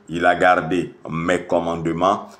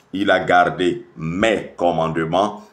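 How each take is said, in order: Both takes have the same delivery.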